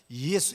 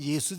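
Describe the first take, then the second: First: The name is said carefully, in three syllables. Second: The name is said quickly, in two syllables. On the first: "정확하게는 이예수 이렇게 되죠" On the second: "빨리 하면 예수 되지만"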